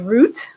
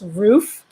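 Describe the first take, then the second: First: The name ends in a t sound. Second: The name ends in an f sound. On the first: "to my Caribbean friends, they would say Root" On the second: "To my American friends, it was Ruth"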